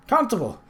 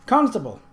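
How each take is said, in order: First: Calling out. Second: Put-on high, loud boy's call, a touch louder; calling again. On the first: Acted. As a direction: shout for the constable across the street. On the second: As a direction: keep calling, urgent. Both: Boy calls for the constable.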